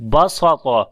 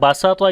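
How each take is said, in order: First: The middle s sound is heavy and emphatic. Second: The middle s sound is light and thin. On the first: "ये सीन स्वाद बन जाता था" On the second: "ये भी सीन के साथ है"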